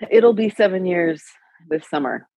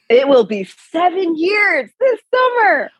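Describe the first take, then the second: First: It is said in a flat, low-energy way. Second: It is said in an excited, lively way. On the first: The speaker calls it wrong. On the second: The speaker calls it right.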